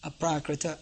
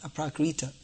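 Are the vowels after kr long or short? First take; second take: short; long. First: The vowels after kr are short. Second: The vowels after kr are long. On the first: The speaker calls it right. "there's not long ri, it's short, ... and then short a at the end, so it becomes aprakrita" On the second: The speaker calls it wrong. "not aprakrita"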